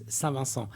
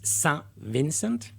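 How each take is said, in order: First: The name is pronounced the French way. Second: The name is pronounced the English way.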